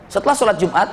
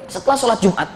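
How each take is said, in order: Both takes have the same delivery.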